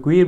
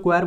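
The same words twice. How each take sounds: First: क्वीर with a long "ee" vowel; क्वीर pronounced "kweer"; alternative pronunciation. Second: क्वेर with an open "e" vowel, like "kwair"; क्वेर pronounced "kwair"; variant pronunciation. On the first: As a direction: say क्वीर to rhyme with "ear". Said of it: "कुछ लोग क्वीर बोल देते हैं". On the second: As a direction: say क्वेर to rhyme with "air". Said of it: "कुछ लोग क्वेर बोल देते हैं". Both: Shown as a demonstration.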